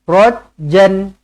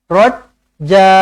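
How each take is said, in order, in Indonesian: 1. Berakhir dengan bunyi n yang ditambahkan. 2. Berakhir pada vokal panjang, tanpa n. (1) "Jangan berhenti macam ni" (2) "dibaca dengan dua harakat"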